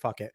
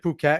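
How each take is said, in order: First: The name sounds like the phrase 'fuck it'. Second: The name does not sound like 'fuck it'. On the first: The speaker calls it wrong. "I've always like called it like fuck it" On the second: The speaker calls it right. "is that how you pronounce it"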